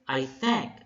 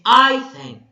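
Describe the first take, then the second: First: The stress falls on the word thank. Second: The stress falls on the word I. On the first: The speaker calls it right. "So thank is being stressed" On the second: The speaker calls it wrong. "You're not going to say"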